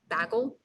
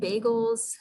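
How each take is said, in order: First: It is said with a Canadian accent. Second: It is said with an American accent.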